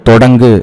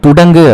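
First: The first vowel is o. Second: The first vowel is u. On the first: The speaker calls it right. "தொடங்கு அப்படிங்கிறது தான் correct" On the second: The speaker calls it wrong. "துடங்கு அப்படிங்கிறது தவறு"

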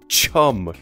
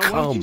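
First: The word begins with a ch sound. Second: The word begins without a ch sound. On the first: The speaker calls it right. "It's chum" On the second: The speaker calls it wrong.

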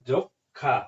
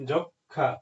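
No difference in how they are said.

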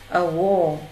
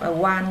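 First: The vowel in wall is an o sound. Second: The vowel in wall is not an o sound. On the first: The speaker calls it right. "âm o" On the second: The speaker calls it wrong. "không đọc a wall nha"

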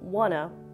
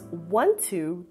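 First: The words are said as one short reduced word. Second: The words are said as two full separate words. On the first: "wanna. Let's practice that" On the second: "reduce want to"

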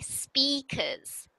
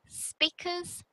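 First: The first vowel is long, like in 'seat'. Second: The first vowel is short, like in 'sit'. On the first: The speaker calls it right. "must sound like E speakers" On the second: The speaker calls it wrong. "so it doesn't sound like I speakers"

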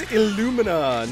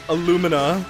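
First: It sounds like the start of 'illumination'. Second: It sounds like the start of 'aluminum'. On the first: The speaker calls it right. "Illumination, Illumina" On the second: The speaker calls it wrong. "not Illumina, like aluminum"

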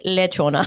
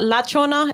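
First: The first syllable has an 'e' vowel. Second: The first syllable has an 'a' vowel. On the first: The speaker calls it right. "It's lechona. Apparently, there's a difference. Le and la" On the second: The speaker calls it wrong. "So it's not lachona"

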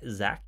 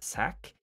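First: It starts with a z sound. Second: It starts with an s sound. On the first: "When you say Zach" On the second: "you say sack"

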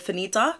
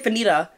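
First: The middle consonant is a clear T sound. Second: The middle consonant sounds like a D.

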